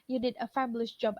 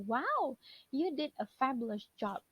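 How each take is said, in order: First: Said in the usual way. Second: Impressed praise. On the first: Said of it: "misalnya cuma bilang". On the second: Shown as a demonstration. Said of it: "kalau kita tambahkan wow".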